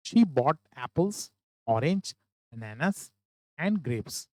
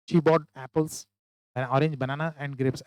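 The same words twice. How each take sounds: First: Very slow, breaking after every fruit; right way, list with comma pauses; pause at each comma. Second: Rushed list without breaks; wrong way, no comma pauses; run together. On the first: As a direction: stop at each item in the list. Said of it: "इस तरीके से पढ़े". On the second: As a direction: say the list in one go. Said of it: "ऐसा ना पढ़े". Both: Shown as a demonstration.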